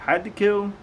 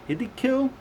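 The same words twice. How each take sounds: First: "Hiddekel" said as a questioning correction; retry "Hiddekel" carefully; "Hiddekel" with a rising doubtful tune; second try at the name. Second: High questioning "Hiddekil"; unsure pronunciation. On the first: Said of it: "H I D D E K E L". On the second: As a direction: try the name "Hiddekil" doubtfully. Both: Real, not acted.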